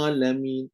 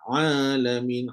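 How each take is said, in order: First: It begins with a plain glottal stop. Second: It begins with a pressed, throaty sound. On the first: The speaker calls it wrong. "dia baca Hamzah ... Tak kena, tak betul tu" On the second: The speaker calls it right. "Kena baca Ain. ... kena tekan"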